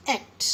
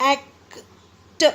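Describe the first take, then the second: First: Said in the usual way. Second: "एक्ट" chopped in two with a gap before "ट"; broken into pieces. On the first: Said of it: "नहीं". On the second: Shown as a demonstration. Teacher warning against a broken word, "एक्ट" in two pieces. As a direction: say "एक", stop, then a separate "ट" for "एक्ट". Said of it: "हम ऐसे नहीं बोलेंगे".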